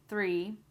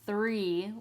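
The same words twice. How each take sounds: First: The th sound is quick and light. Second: The th sound is long and exaggerated. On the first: The speaker calls it right. "it's just there quickly" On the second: The speaker calls it wrong. "You do not have to exaggerate this and say three like that"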